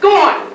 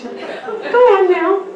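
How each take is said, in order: First: It is said forcefully, with gusto. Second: It is said weakly, without force.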